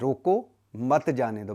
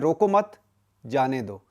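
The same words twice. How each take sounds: First: There is a pause right after 'रोको'. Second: There is a pause right after 'मत'.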